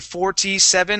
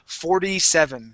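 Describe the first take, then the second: First: The T in forty is a clear T. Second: The T in forty sounds like a D. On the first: The speaker calls it wrong. "I don't say forty-seven" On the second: The speaker calls it right. "I switch that T to a D sound"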